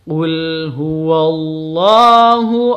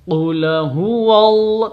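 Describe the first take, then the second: First: The l of qul closes cleanly with no vowel. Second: An extra vowel sound follows the l of qul. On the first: The speaker calls it right. "Yang betul yang mana?" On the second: The speaker calls it wrong. "tidak boleh seperti itu"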